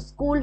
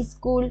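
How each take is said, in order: First: Said in the usual way. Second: স্কুল said as "is-kul"; vowel added in front. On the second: Shown as a demonstration. Teacher showing a vowel at word start, স্কুল as "iskul". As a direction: put an "i" before স্কুল: "iskul". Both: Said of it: "শব্দের আগে স্বরধ্বনি কিভাবে এসছে".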